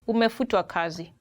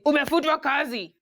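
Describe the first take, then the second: First: It is said in a soft, polite tone. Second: It is said in a blunt, harsh tone. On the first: The news is softened so it hurts less. "sometimes they say it in a polite way" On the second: The news is delivered bluntly and without care. "there are those ones who come literally and say"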